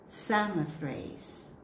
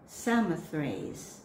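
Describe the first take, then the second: First: Slow careful pronunciation, repeated. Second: Slow careful pronunciation. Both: Shown as a demonstration. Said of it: "read it slowly".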